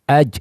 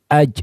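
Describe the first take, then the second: The two takes are said the same way.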